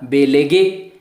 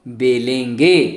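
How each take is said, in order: First: The second vowel is said without nasalization. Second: The second vowel is said with nasalization. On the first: "अगर यहां पे बिंदु नहीं लगा होता तो होता बेलेगे" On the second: "लेकिन अभी क्या बोलना है आपको"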